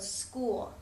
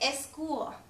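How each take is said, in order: First: The word begins directly with the s sound. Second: An extra vowel sound comes before the s. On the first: The speaker calls it right. "in English we just start with that S sound" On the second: The speaker calls it wrong. "a common mistake a lot of your uh, English learners might make"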